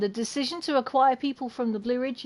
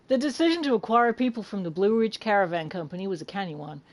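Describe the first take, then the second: First: Said in the usual way. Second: Attempted American accent reading; British speaker trying an American accent. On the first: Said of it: "I will switch". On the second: Shown as a demonstration. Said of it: "shall I do this in an American accent".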